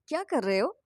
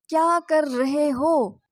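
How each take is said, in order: First: It has natural rhythm with uneven word stress. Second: Every word gets equal stress, evenly spaced.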